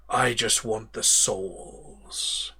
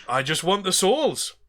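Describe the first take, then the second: First: Said in the usual way. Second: Put-on higher pirate accent, back in character; pirate captain redoing his line; Davy Jones accent restored. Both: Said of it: "I've changed my accent from Davy Jones there".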